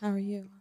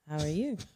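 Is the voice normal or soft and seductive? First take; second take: soft and seductive; normal. First: It is said in a soft, seductive voice. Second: It is said in a normal voice.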